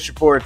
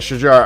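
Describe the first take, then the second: First: The middle consonant is a 'p' sound. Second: The middle consonant is a 'j' sound. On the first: The speaker calls it wrong. "I've been saying Shapur too" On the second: The speaker calls it right. "It's Shajar"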